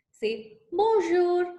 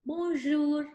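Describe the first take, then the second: First: Put-on "bonjour" said slowly and higher, stretched out for children to copy; "bonjour" drawn out slowly and higher for a class to repeat; slow model word. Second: Said in the usual way. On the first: Shown as a demonstration. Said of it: "can you repeat with me?". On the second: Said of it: "That's in French".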